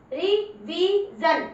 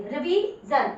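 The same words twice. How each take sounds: First: रिवीजन read very slowly, syllable by syllable; slow demo reading. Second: Said in the usual way. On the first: Shown as a demonstration. Teacher showing class how to read, very slow. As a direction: stretch रिवीजन out for pupils. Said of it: "जैसे मैं देखो बता रही हूँ". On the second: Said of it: "तो देखो ये कितनी शॉर्ट बन गई".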